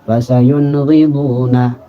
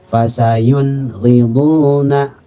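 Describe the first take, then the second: First: The phrase is recited quickly. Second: The phrase is recited slowly. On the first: "atau cepat" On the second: "Kalau bacanya pelan seperti itu"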